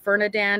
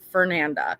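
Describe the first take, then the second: First: The name ends with a 'dand' sound. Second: The name ends with a 'nda' sound. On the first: The speaker calls it wrong. "I am aware that I am calling her Fernadand" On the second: The speaker calls it right. "her name is Fernanda"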